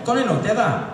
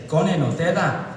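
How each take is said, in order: First: High mock Glaswegian, rattled off; pitched-up thick Glaswegian accent. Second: Slightly slowed mock Glaswegian; thick Glaswegian, a touch more deliberate. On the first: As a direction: imitate a Glasgow friend repeating herself. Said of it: "they got thick Glaswegian accents". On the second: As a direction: spell it out in a Glasgow accent. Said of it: "they slow down what they're saying".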